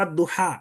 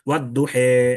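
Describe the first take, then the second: First: The final vowel is an open a sound. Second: The final vowel is an e sound.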